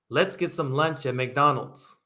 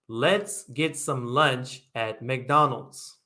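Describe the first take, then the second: First: The sentence is said at a faster pace. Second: The sentence is said at a slower pace.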